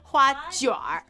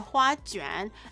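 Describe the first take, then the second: First: The second syllable ends in an r sound. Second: The second syllable ends in an n sound. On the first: This is the regional dialect form. "remove the n in hua juan and put in r" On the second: This is the standard form. "that's proper Mandarin"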